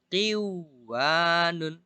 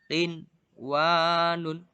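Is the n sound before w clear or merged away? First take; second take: merged; clear. First: The n sound merges into the w. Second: The n sound is pronounced clearly before w. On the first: The speaker calls it wrong. "tidak boleh dibaca qiwanun" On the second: The speaker calls it right. "justru diidharkan"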